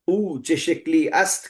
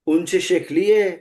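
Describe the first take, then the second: First: The phrase is said in full, ending with 'ast'. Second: The ending is shortened and merged into 'shikliye'. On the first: This is the formal written form. "के बजाय" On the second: This is how ordinary people speak. "जनता जो जबान बोलती है वो ऐसे बोलती है"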